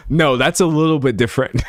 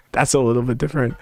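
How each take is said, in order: First: Said in the usual way. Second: Laughing aside. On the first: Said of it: "repeats the line". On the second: Shown as a demonstration. To chat, a quick laughing muttered correction. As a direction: chuckle it under your breath, quickly. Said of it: "repeat, laughing and quicker".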